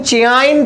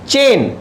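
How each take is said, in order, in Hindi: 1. शब्द में दो अलग-अलग स्वर ध्वनियाँ हैं। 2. शब्द में एक ही स्वर ध्वनि है। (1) "लेकिन चेआइन तो नहीं हो रहा ना" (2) "चे ए आ रहा है"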